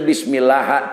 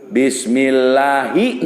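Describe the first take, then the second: First: The word ends without a final vowel. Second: The word ends with an i vowel. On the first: The speaker calls it wrong. "henteu bismillah" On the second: The speaker calls it right. "dijeer bismillahi"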